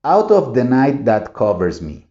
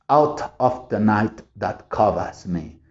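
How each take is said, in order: First: A smooth American line, with the r in "covers" said; American rhythm. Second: The whole line in a British accent, softer and slow, "covers" said "cobas". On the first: Teacher reading the poem line with American rhythm. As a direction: say it as one flowing American phrase. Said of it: "lo estoy haciendo como el americano". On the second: Teacher reading the poem line with a British accent. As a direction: read it like an English reciter, no r in "covers". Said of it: "muy clásicas de, ya sea Inglaterra". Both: Shown as a demonstration.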